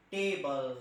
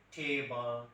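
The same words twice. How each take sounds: First: "table" with a hard retroflex Indian t. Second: Western "table", puff of air on t; aspirated Western t. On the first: Trainer shows Indian "table", retroflex t. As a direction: Indian "table", tongue curled back. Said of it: "we Indian". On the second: Trainer demos the Western t in "table". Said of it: "like American or Britishers". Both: Shown as a demonstration.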